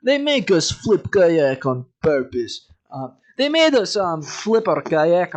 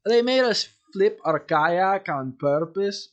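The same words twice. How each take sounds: First: Slight Russian accent. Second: Corrected Russian accent. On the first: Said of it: "I'm going slightly Russian". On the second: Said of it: "Yeah, that's better". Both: Shown as a demonstration.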